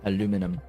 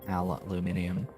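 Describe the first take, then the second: First: It is said with four syllables, a-lu-mi-num. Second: It is said with five syllables, al-u-min-i-um. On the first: The speaker calls it right. "The actual correct way of saying that word as spelled" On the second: The speaker calls it wrong. "said with the extra I"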